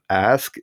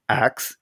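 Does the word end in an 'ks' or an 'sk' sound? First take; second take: sk; ks. First: The word ends with an sk sound. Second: The word ends with a ks sound, like axe. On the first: "instead of ask" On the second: "saying ax instead of ask"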